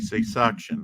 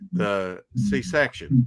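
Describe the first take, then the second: First: The second syllable is pronounced 'suc'. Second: The second syllable is pronounced 'sec'. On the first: The speaker calls it wrong. "I always want to say C-suction" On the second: The speaker calls it right. "I always say this wrong"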